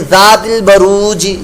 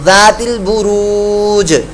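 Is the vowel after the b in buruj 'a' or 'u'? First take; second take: a; u. First: The vowel after b is an 'a' sound. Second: The vowel after b is a 'u' sound. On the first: The speaker calls it wrong. "पेश की जगह ज़बर भी आप लगा देंगे तो ये गलती हो जाएगी" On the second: The speaker calls it right. "बुरू जहाँ पर दो पेशे होती हैं"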